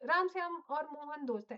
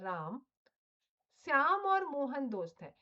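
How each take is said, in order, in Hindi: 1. नाम बिना किसी रुकावट के एक साथ बोले जाते हैं। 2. पहले नाम के बाद थोड़ा सा रुकाव है। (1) "ऐसे नहीं होगा" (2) "राम के बाद थोड़ा सा आपको रुकना पड़ेगा"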